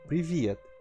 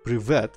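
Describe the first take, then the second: First: The V is soft, with a y-like glide. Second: The V is hard, with no softening. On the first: The speaker calls it right. "it's the soft V there" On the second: The speaker calls it wrong. "not Privet"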